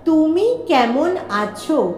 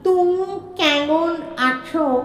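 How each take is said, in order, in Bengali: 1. m ধ্বনিগুলো বন্ধ ঠোঁট দিয়ে উচ্চারিত হয়। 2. m ধ্বনিগুলো জিভের ধ্বনি হয়ে 'ng'-এর মতো শোনায়।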